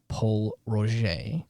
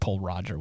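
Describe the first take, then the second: First: The name is not pronounced as it is spelled. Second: The name is pronounced just as it is spelled. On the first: The speaker calls it right. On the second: The speaker calls it wrong.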